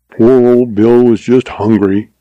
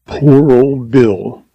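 First: Interrupting in mild protest; quick defense. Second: Slow, drawn-out lament; mournful. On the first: Givens interrupting to defend the deceased, quick protest. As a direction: cut in promptly to excuse him. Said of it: "interrupted Givens in a quick defense". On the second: Givens over the dead lion, mournful exclamation. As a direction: mourn each word, stretching it out. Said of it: "he exclaimed mournfully". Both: A narrator's reading.

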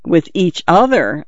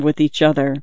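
First: Mildly incredulous, pitch swinging up on OTHER then falling; incredulous echo. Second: Said in the usual way. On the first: A narrator's reading. Friend echoes his claim of mutual love, mildly incredulous. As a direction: echo it as a doubting question. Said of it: "I echoed incredulously".

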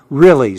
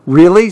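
First: Falling, settled answer; plain reassurance with a falling tune; confirming. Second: High, rising question. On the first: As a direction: confirm it at normal pitch. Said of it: "said Joey". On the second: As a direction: ask it in surprised disbelief. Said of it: "said Clark". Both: A narrator's reading.

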